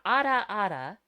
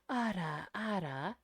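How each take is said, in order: First: It is said in a plain, ordinary voice. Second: It is said with a breathy voice. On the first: "So you got ada ada" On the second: "So then you add the breathiness"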